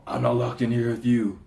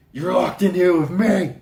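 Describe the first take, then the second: First: Firm quoted line, near usual pitch; first half of a dramatic quote, held back; mock movie quote. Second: Higher, much louder quoted threat; hammed-up yell of a film line; mock movie shout. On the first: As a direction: deliver it as a contained, measured warning. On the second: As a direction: burst out with the dramatic punchline.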